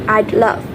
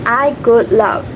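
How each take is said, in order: First: Would is contracted onto I. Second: Would is said as a full word.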